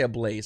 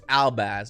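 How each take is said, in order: First: It sounds like 'a blaze', rhyming with 'maze'. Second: It sounds like 'al-baz', ending in 'baz'. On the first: The speaker calls it wrong. "I always want to say a Blaze" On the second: The speaker calls it right. "It's Albaz"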